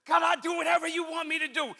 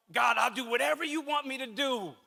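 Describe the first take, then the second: First: Higher, fervent mock plea to God; earnest prayer. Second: Half-hearted imitating of an easy promise to God; casual prayer. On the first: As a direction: lift it up like a sincere vow. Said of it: "Have we said that before?". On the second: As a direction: toss it off like everyone says it. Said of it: "we all say this thing".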